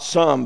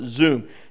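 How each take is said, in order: First: The word begins with an s sound. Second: The word begins with a z sound. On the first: The speaker calls it wrong. "not some" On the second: The speaker calls it right. "This S really sounds like a Z in Hebrew"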